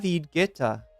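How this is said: The name is said with a French pronunciation. "In French, it is said as David Guetta"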